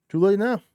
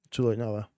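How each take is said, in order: First: Higher, louder hype shout. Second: Said in the usual way. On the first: Real, not acted. Shouted repeat.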